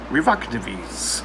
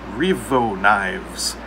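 First: Knives is said with every letter sounded out. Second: Knives is said normally as one syllable.

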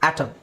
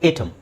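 First: The first vowel is short, as in cat. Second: The first vowel is long, as in day. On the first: The speaker calls it right. "ಆಟಮ್ ಅಂತ ಹೇಳಬೇಕು ನಾವು" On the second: The speaker calls it wrong. "So ನೀವು ಏಟಮ್ ಅಂತ ಹೇಳಬಾರ್ದು"

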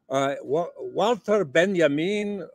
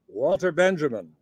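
First: The name is pronounced in a non-American way. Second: The name is pronounced the American way.

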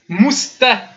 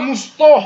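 First: The t is light and thin. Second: The t is heavy and emphatic. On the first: The speaker calls it right. "c'est tout fin, tout léger" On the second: The speaker calls it wrong. "Ils font un to, les gens, au lieu d'un te"

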